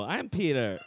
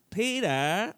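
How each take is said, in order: First: Half-hearted stab at a Family Guy voice. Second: High, rising Family Guy attempt. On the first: Guest correcting his demo, tentative Family Guy voice. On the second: Guest demonstrating his best accent, Family Guy voice. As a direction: try a shaky grasp at a Family Guy voice. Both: Shown as a demonstration. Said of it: "a Family Guy accent".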